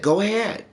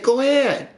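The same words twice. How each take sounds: First: Said in the usual way. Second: High, teasing imitation of his girlfriend; mocking girlfriend voice. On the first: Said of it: "'Cause then she said". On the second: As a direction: mimic her taunt, pitched up and a bit louder. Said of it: "She said".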